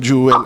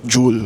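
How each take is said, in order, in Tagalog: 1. Ang salita ay binibigkas na may dalawang pantig. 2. Ang salita ay binibigkas na may isang pantig.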